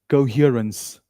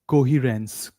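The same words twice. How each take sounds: First: The first vowel is a gliding diphthong. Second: The first vowel is a single plain vowel. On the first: The speaker calls it right. "the correct form is co. It's a diphthong" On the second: The speaker calls it wrong. "Many people say coherence"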